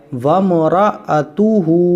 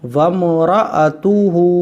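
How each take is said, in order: Both takes have the same delivery.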